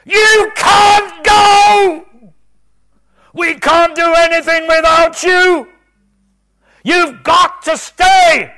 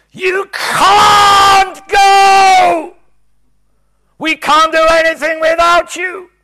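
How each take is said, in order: First: Very high, very loud, drawn-out shout; desperate scream. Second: Very high, very loud, slow crying shout; desperate scream. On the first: Preacher screaming at departing Jesus, desperate scream. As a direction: scream it as if he's leaving. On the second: Preacher reliving screaming at Jesus, desperate scream. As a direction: beg at full volume. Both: Retold or imitated. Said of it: "I screamed at him".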